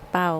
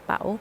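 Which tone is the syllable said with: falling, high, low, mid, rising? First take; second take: low; rising. First: The syllable is said with a low tone. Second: The syllable is said with a rising tone. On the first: "ไม่เอก" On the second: "ไม่จัตวา"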